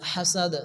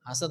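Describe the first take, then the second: First: It begins with a heavy, big h. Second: It begins with a light, small h. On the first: The speaker calls it right. "হাসাদ হবে। এখানে কিন্তু হা আসছে বড় হা" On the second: The speaker calls it wrong. "অনেকে তো ছোট হার উচ্চারণ করে হাসাদ বলে, হাসাদ হবে না"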